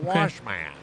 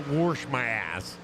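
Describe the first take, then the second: First: The word wash has no r sound. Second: The word wash has an r sound. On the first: The speaker calls it right. "I say" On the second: The speaker calls it wrong. "I do not say"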